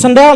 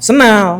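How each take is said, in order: First: The d sound is clearly pronounced. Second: The d sound is dropped entirely.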